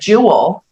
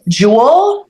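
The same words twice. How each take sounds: First: The word is said as two syllables. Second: The word is said as one syllable. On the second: "like just one syllable"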